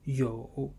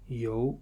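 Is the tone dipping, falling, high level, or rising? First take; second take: dipping; rising. First: The tone dips low, then rises. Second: The tone rises from middle to high.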